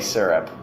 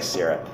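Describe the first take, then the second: First: The first vowel is an er sound. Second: The first vowel is an i sound. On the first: This is how the other person says it. "You say syrup" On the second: This is how the speaker says it. "it sounds like it's pronounced with an I when I say syrup"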